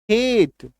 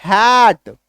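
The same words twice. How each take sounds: First: "Hate" with a closed, unforced ay; demonstrated pronunciation. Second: "hat" with a long, emphatic open ae; demonstrated pronunciation. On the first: Teacher contrasting two words for class, lighter ay in "Hate". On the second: Teacher contrasting two words for class, drawn-out open "hat". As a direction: stretch the vowel in "hat" wide. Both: Shown as a demonstration. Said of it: "इसका उच्चारण पढ़िए".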